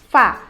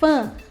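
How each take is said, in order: First: The A vowel is said wide open. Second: The A vowel is said closed.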